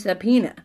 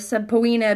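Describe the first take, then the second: First: The O vowel is skipped past quickly. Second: The O vowel is sounded as its own vowel. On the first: This is how it is said now. "we just kind of schwa our way right past it" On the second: This is the old way it was said. "way, way back, it was pronounced subpoena"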